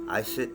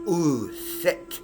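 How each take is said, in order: First: The name begins with an 'ee' vowel. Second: The name begins with an 'oo' vowel. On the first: The speaker calls it wrong. "Some of you mispronouncers might call it Iset" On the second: The speaker calls it right. "But the original was Uset"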